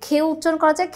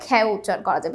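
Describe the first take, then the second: First: "খে" with a closed e, as in "hey"; closed e vowel. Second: "খ্যাও" with an open æ, as in "cat"; open æ vowel. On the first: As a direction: say "খে" with the natural closed e sound. ("খে"-তে সংবৃত এ উচ্চারণ) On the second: ("খ্যাও"-তে বিবৃত অ্যা উচ্চারণ) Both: Shown as a demonstration.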